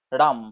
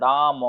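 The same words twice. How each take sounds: First: Said in the usual way. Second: "রাম" stretched long with a trailing vowel; drawn-out wrong way. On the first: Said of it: "একবারেই পুরোটা বেরিয়ে যাচ্ছে". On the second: Shown as a demonstration. Teacher shows students how not to say "রাম", drawn out. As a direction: drag out "রাম" into two beats. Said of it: "এরকম কিন্তু আমরা বলছি না".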